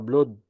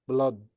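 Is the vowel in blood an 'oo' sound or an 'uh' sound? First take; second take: oo; uh. First: The vowel is said as an oo sound. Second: The vowel is said as an uh sound. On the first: The speaker calls it wrong. "ما اقولش بلود" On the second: The speaker calls it right. "لا بلا. بلاد"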